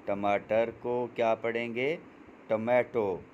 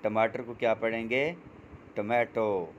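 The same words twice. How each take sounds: The two takes are said the same way.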